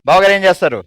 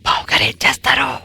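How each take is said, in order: First: The question is asked at normal speed. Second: The question is asked slowly and drawn out.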